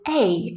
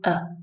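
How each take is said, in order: First: It is said with a full, clear vowel. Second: It is said quickly with a reduced vowel. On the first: "If we say it on its own, it's the strong form" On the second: "it's the weak form"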